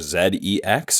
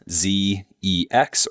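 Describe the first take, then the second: First: The letter Z is said the British way. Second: The letter Z is said the American way.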